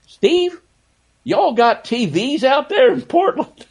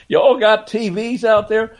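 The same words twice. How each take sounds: First: High, drawn-out West Virginia drawl; mock the West Virginia drawl, stretching y'all. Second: High, drawn-out West Virginia drawl. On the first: Host imitating Rod Thorne teasing Snapper, in a West Virginia drawl. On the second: Retold or imitated. Host repeating Rod Thorne's West Virginia drawl joke. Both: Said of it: "in his West Virginia drawl".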